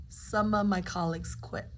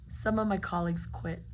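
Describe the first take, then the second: No difference in how they are said.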